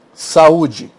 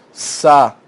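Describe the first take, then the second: First: Said in the usual way. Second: "sa-u-de" spelled out syllable by syllable, the u set apart; each syllable of "sa-u-de" said separately; split into syllables. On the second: Shown as a demonstration. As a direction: break saúde into sa, u, de.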